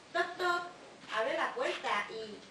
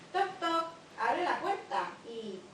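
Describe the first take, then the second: No difference in how they are said.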